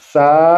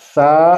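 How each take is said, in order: No difference in how they are said.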